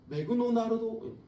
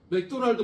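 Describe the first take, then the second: First: It is said with Japanese-style extra vowels. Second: It is said in plain Korean pronunciation. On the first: The speaker calls it wrong. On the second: The speaker calls it right.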